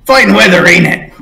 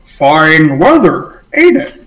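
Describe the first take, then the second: First: Brisk greeting, a bit higher and louder; cheery sailor small talk. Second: Drawn-out words, pitch jumping up at the end; slow puzzled echo. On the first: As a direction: toss it off like friendly small talk. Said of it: "turns towards the Torg and goes". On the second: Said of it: "the guy goes". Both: Acted.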